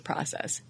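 It is said with an American pronunciation. "or American"

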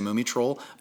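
The name has an American pronunciation.

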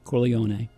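The name is said with an Italian pronunciation. "The Italian pronunciation is Corleone"

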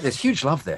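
It is said with lively, enthusiastic energy. "say it with a bit more enthusiasm"

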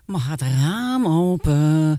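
The tone is tired and weary. The speaker feels they have sat here too long. "En de derde is, oh, wat zitten we hier al lang"

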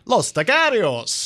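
The name is said in an exaggerated foreign accent.

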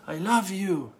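It is said in a warm, heartfelt tone. The speaker loves the listener with all their heart. "Second, that you love me with all your heart"

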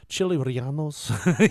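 The name gets an exaggerated Spanish-style pronunciation. The speaker is pretending to speak the language. The speaker calls it wrong. "they say it like that"

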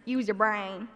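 It is said in a Southern accent.

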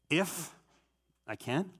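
The stress is on the word if.

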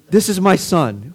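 It sounds warm and loving.

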